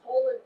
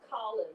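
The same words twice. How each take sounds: First: The name is said with an American pronunciation. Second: The name is said with a British pronunciation. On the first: This is what his friends in the neighborhood called him. "he became Colin Powell" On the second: This is what his family called him. "the British pronunciation that was used by the Jamaicans"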